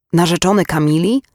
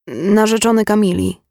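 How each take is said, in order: First: Questioning rise of disbelief; incredulous echo. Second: Said in the usual way. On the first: A narrator's reading. Mother repeats the visitor's claim to be fiancé, incredulous echo. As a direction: echo it back as a stunned question. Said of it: "odezwała się naraz nie swoim głosem".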